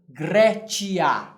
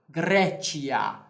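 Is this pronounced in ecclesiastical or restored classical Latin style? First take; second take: ecclesiastical; ecclesiastical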